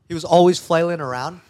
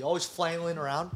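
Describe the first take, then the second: First: "always flailing around" repeated with much louder, heavier stress; emphatic repeat. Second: Said in the usual way. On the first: Real, not acted. Telling friends how clumsy he was, emphatic repeat. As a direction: punch "always flailing" loudly.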